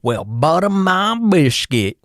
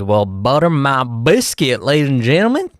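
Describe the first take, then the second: First: Slow Texan drawl, pitched much higher; Texan exclamation. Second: Texan exclamation. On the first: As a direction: stretch out a high, hammed-up Texan "butter my biscuit". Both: Pretend. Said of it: "'cause of my Texan accent".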